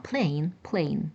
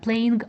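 First: No g sound is heard at the end. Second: A g sound is heard at the end. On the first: The speaker calls it right. "а plane" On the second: The speaker calls it wrong. "не playing"

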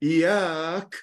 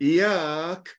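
Both takes have the same delivery.

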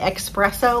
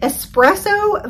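First: It starts with an 'ex' sound, like expresso. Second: It starts with an 'es' sound, with no x. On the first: The speaker calls it wrong. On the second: The speaker calls it right.

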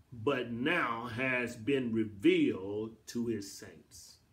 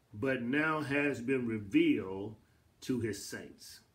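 The two takes are said the same way.

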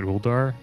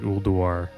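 First: The first U sound is reduced or skipped. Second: The first U sound is clearly pronounced. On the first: The speaker calls it wrong. "I call it Ulduar" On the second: The speaker calls it right. "You have to kind of pronounce the U a little bit"

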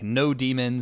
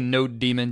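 First: It sounds like the two words no demon. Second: It sounds like the two words node daemon. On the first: "Some people pronounce this differently" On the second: "it's Node and it's sort of a daemon"

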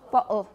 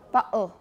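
First: The middle consonant is a glottal stop. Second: The same.

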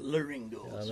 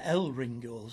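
First: The first part is pronounced 'le'. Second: The first part is pronounced 'el'. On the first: The speaker calls it right. "Nobody pronounced it Le Ringos" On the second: The speaker calls it wrong. "Everybody used to say El Ringos, which was wrong"

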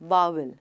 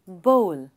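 First: The vowel sounds like 'ow'. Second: The vowel sounds like 'oh'. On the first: The speaker calls it wrong. "Not बाउल. वो गलत है" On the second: The speaker calls it right. "Correct pronunciation है बोल"

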